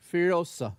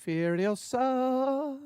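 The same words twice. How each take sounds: First: Said in the usual way. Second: Furiosa stretched very slowly and pitched high; dramatic drawn-out title. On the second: Acted. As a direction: savour the word Furiosa like a trailer voice, higher and long.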